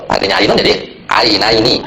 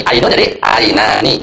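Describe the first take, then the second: First: Ainun then ainaini, slow, with the ai before ni clearly voiced; slow model pronunciation. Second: Ainun then ainani, slow, with the long a before ni stretched; slow model pronunciation. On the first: Teacher modelling the second dual form ainaini for the class. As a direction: sound out ainaini slowly, marking the ai sound. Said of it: "Model kedua itu ditambahnya sama nun". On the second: Teacher modelling the first dual form ainani for the class. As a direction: sound out ainani slowly, syllable by syllable. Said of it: "model pertama ditambah alif sama nun".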